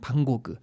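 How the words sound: The name is said the French way. "프랑스에서는"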